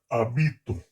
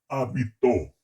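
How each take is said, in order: First: The stress is on the second syllable. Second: The stress is on the third syllable. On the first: It is the present tense, first person. "la primera persona del modo indicativo, del presente" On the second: It is the simple past, third person. "pretérito perfecto simple"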